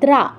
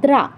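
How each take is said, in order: No difference in how they are said.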